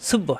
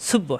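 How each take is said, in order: The two takes are said the same way.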